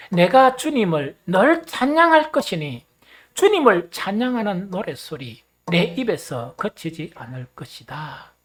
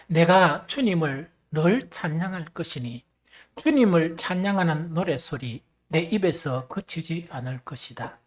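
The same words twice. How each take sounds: First: Rally the congregation to recite louder; emphatic verse recitation. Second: Loud, measured scripture reading; leading verse recitation. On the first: Repeats verse after "once more, begin. (높고 우렁차게 성경 낭독) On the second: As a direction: lead the congregation in reciting the verse. Leads congregation in reading a verse. (또박또박 힘 있게 성경 봉독) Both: Real, not acted.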